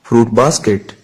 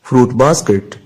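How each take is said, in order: The two takes are said the same way.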